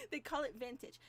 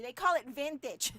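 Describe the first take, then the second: First: Said in the usual way. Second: Louder, with a laugh on it; amused laughing aside. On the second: Real, not acted. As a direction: laugh as you say it. Laughing at the label.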